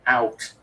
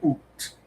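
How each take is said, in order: First: Said in the usual way. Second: "oot" with a long oo, rhyming with boot; mock-Canadian "oot" for "out". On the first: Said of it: "instead of". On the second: Shown as a demonstration. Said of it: "they'd say oot".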